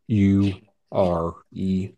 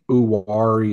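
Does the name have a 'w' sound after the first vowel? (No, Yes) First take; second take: No; Yes. First: The name has no 'w' sound after the first vowel. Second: The name has a 'w' sound after the first vowel. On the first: This is how locals say it. "Everyone else around here calls it U-R-E" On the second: This is the proper pronunciation. "Uwari is probably the proper way to say it"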